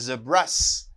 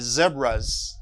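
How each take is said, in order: First: The word ends with a hissing s sound. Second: The word ends with a buzzing z sound. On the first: The speaker calls it wrong. "I don't say zebras" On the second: The speaker calls it right. "I say zebras because zebra terminates by a vowel sound"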